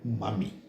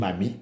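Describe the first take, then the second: First: The first vowel sounds like 'uh', as in mummy. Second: The first vowel sounds like 'ah', as in mama. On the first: The word is the standard English word for mother. "is actually supposed to be M U M M Y" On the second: The word is the Creole and Pidgin form. "in our Creole and Pidgin English, we say Mami, the M A M I"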